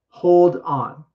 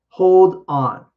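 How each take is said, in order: Both takes have the same delivery.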